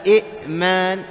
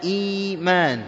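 First: إئمان with a hard catch after short "i"; إئمان with a glottal stop mid-word; original two-hamza form. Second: إيمان with a slow, drawn-out "ee"; long "eee-maan" in إيمان, no catch; hamza turned ya. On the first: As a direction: split إئمان at the hamza, "i'-maan". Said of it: "إيمان أصلها إئمان". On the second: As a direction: stretch the first vowel of إيمان slowly. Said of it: "مجانس لحركة ما قبلها". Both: Shown as a demonstration.

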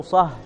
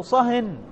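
First: صه with a silent ending, no n; without tanween. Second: Higher-pitched صهن ending in -in; صهن as a command, nunated; with tanween. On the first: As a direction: say صه stopped on the h. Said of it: "صه بدون تنوين". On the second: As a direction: say صهن with a clear final n. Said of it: "فتقول له". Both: Shown as a demonstration.

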